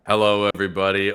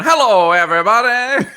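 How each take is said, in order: First: Said in the usual way. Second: High, booming showman greeting, half laughing; Jawa carnival barker. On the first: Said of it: "Is that your Jawa accent?". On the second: Retold or imitated. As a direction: greet the crowd like a fairground barker. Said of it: "you've got one that's just going".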